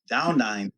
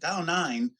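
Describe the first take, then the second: First: It is said plainly and matter-of-factly. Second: It is said suspiciously, as if accusing of cheating.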